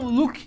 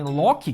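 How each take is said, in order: First: The name is said with English pronunciation. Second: The name is said with Portuguese pronunciation. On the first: The speaker calls it wrong. "que é a pronúncia em inglês" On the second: The speaker calls it right. "que é a pronúncia em português"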